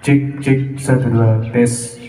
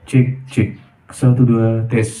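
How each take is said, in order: First: The voice has an added vocal effect on it. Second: The voice sounds dry, with no added effect. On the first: "Sekarang kita tes efek vokalnya teman-teman" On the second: "Bening ya"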